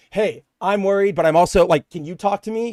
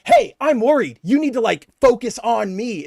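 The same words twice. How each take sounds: First: Concerned partner. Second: Higher, louder, needy mock of the boyfriend; self-centred demand. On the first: Shown as a demonstration. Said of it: "he's not here going". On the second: Boyfriend turning her news into his worry, mock needy. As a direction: make it all about yourself, a bit pushy. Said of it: "He's going".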